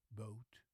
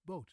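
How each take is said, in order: First: Boat with a rounded, gliding English O; English pronunciation. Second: Boat with a short, flat Dutch O; Dutch pronunciation. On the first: Teacher contrasting languages for viewers, English boat. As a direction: drop the jaw on boat. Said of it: "the English word boat first". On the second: Teacher contrasting languages for viewers, Dutch boot. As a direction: keep the mouth still on boat. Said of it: "and then the Dutch word". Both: Shown as a demonstration.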